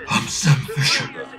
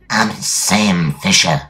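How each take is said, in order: First: A strained, tight put-on voice. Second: A deep, eerie demon-like voice. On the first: "That sounds like a constipated Al Pacino" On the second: "I can do a demon voice"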